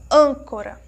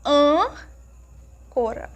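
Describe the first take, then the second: First: Said in the usual way. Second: Âncora very slow, long closed "ân", then "cora"; closed sound. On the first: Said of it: "quando nós pronunciamos". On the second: Shown as a demonstration. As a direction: hold the closed "ân" of âncora, pause before "cora". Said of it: "Ele tem um som mais fechado". (âncora com "ân" fechado e alongado)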